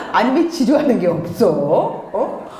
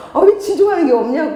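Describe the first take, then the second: First: Understated puzzled questioning; lightly acted puzzlement; mildly baffled mother. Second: High, loud acted exasperation; raised-pitch exasperated complaint; exasperated mother. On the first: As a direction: ask in mild bewilderment. Acts baffled mother, first take. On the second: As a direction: demand it in mock frustration. Acts exasperated mother, repeated more forcefully.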